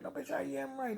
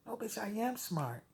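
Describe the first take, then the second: First: No, bitch, I am right with I pitched much higher and softer; rising retort. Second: No, bitch, I am smart with am punched, higher and softer; snapping retort. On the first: Retorting to Kylie, I pitched much higher. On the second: Retorting to Kylie, am hit higher and softer. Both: Acted.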